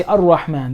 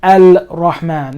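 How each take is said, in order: First: Ar-Rahman with l melted into r; lam silent. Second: Al-Rahman slow and louder with a clear l; lam wrongly pronounced. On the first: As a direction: run straight into a doubled r in Ar-Rahman. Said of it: "You say". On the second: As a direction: split it as Al, then Rahman. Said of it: "here I don't pronounce". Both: Shown as a demonstration.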